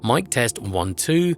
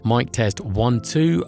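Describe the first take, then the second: First: The low frequencies are cut by a filter. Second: The level is lowered by a pad. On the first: "with the eighty hertz high pass filter engaged" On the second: "the minus ten D B pad has been engaged"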